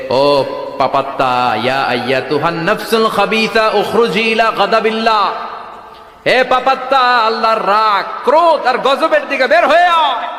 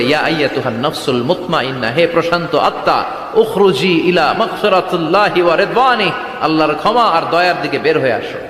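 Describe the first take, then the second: First: Scolding threat. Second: Mildly gentle, measured call to a soul; courteous summons. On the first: Angel of death to a sinful soul, threatening rebuke rising to a shout. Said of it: "ধমক দিয়ে বলে". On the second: Angel of death to a believer's soul, mildly courteous. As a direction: call the peaceful soul out politely, without force. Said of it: "ওর কাছে ভদ্র ভাষায় কথা বলে না". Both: Acted.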